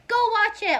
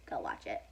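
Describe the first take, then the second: First: Loud, high-pitched order to go; emphatic urging. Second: Low, soft throwaway order; low-key urging. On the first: Vlogger urging viewers to see her favorite show, emphatic urging. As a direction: shout it like an urgent plug. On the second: Vlogger telling bored viewers what to watch, low-key urging. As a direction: drop it right down, understated. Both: Real, not acted.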